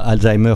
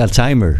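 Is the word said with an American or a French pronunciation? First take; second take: French; American. First: The word is said with a French pronunciation. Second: The word is said with an American pronunciation. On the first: "Ils ne disent pas Alzheimer comme nous" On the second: "ils disent Alzheimer à l'américaine"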